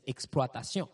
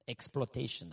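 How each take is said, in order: First: The word is pronounced with French sounds. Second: The word is pronounced with English sounds. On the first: "In French, they say exploitation" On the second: "That's how you would pronounce it in English"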